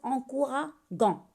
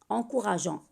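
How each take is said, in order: First: The g is said as a hard g sound. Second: The g is said as a soft j sound. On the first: The speaker calls it wrong. "si j'enlève E, alors on va lire encourageant" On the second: The speaker calls it right. "on veut le son J"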